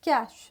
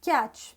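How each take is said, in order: First: The word is said with one syllable. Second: The word is said with one syllable.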